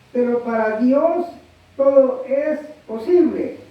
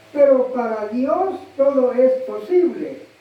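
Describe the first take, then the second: No difference in how they are said.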